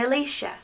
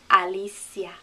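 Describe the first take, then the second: First: It is said with English vowels and sounds. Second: It is said with Spanish vowels and sounds. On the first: "that looks like an English name. We'd say" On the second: "the Spanish pronunciation would have each vowel letter making it sound"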